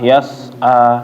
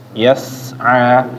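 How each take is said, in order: First: The s sound is soft and plain. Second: The s sound is sharp and hissing. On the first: The speaker calls it wrong. "jangan bacanya kayak s bahasa Indonesia" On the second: The speaker calls it right. "suaranya kayak mendesis"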